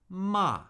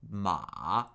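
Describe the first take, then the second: First: The pitch falls sharply from high to low. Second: The pitch dips low, then comes up.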